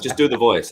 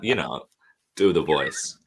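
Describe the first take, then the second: First: High, louder mock urging; retold insistent prompt. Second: Understated, halting insinuation; retold knowing hint. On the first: Casting team presses reluctant actor, insistent. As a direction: imitate someone pushing for it. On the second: Casting team hints to puzzled actor, knowingly. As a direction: drop to a loaded, hesitant nudge.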